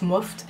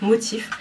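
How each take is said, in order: First: The name is said as one syllable, 'moft'. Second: The name is said as two syllables, 'motif'. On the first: The speaker calls it wrong. "la dernière fois on m'a repris, là moi je disais moft" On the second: The speaker calls it right. "c'est motif en fait, ça se dit comme ça"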